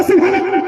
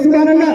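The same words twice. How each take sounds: First: Put-on high, childlike cry of सुभान अल्लाह; childlike Subhan Allah. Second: सुभान अल्लाह called out loud with eager energy; eager exclamation. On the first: Preacher shows the crowd how children say it, high and childlike. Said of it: "बचा के बोलता". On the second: Preacher urges the crowd to cry out eagerly, loud. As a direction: burst out with सुभान अल्लाह, louder. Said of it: "मचल के बोल दो". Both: Shown as a demonstration.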